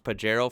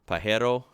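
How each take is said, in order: First: It is said with an English pronunciation. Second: It is said with a Spanish pronunciation. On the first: This is how the car's name is said. "It might be pronounced Pajero for the car" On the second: This is how the Spanish word is said. "hearing Spanish a lot, I would think Pajero"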